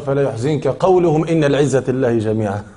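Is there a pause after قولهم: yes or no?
no. It runs on with no pause after قولهم. Their saying that all honor belongs to God grieves you. The speaker calls it wrong. "تصور واحد يقرأ"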